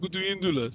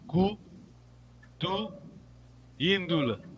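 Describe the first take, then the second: First: It is said flowing together as one word. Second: It is said with pauses between the parts.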